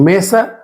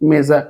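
First: The middle consonant sounds like s. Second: The middle consonant sounds like z. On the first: The speaker calls it wrong. "এখানে মেসা উচ্চারণটা না" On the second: The speaker calls it right. "অ্যাসের পর ভাওয়েল থাকবে তাদের উচ্চারণের জয়ের মতো হবে"

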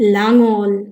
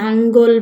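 First: It starts with l and has no g sound. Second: It starts with n and has a g sound. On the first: The speaker calls it right. "এটির সঠিক এবং শুদ্ধ উচ্চারণ হচ্ছে লাঙল" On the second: The speaker calls it wrong. "এটিকে অনেকে ভুল উচ্চারণ করে, নাঙ্গল বলে"

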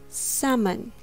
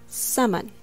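The two takes are said the same way.

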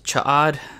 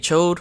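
First: The name is said with two syllables. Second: The name is said as one syllable. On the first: The speaker calls it right. "I'm pretty sure that's the proper way to pronounce it" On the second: The speaker calls it wrong. "Some say Chode, which I have said it that way before"

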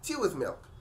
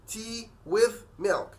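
First: The words run together like one word. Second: Each word is said separately and distinctly. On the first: "الامريكان هيقولوا tea with milk" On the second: "لكن الامريكان ما بينطقوش كده"

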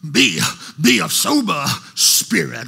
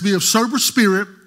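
First: It is read with dramatic, swooping preacher inflection. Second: It is read in a plain, even reading voice.

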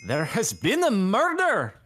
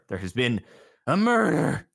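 First: It is said in a put-on Scottish accent. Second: It is said in the speaker's normal accent.

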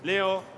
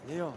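First: The name is said a bit louder. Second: The name is said fairly softly.

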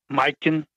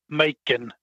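First: The J is sounded like an 'i' vowel. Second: The J is silent and not sounded. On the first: This is how it is said in Norway. "the K would be silent, and the J would be like an I sound" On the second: This is how it is said here. "we pronounce it where the J is silent"

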